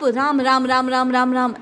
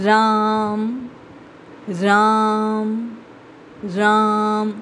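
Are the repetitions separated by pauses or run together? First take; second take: run together; pauses. First: The names are run together without pauses. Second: Each name is followed by a short pause. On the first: The speaker calls it wrong. "ऐसा न कहकर" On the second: The speaker calls it right. "इस प्रकार प्रेम से प्रीति से थोड़ा ठहर कर"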